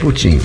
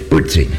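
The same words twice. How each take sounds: First: The name is said with Portuguese pronunciation. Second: The name is said with English pronunciation. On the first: "Eu pronuncio o nome dele em português" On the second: "Em inglês é"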